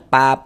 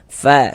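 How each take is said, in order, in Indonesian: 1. Diawali bunyi p. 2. Diawali bunyi f yang berdesah. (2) "ada nafas yang mengalir"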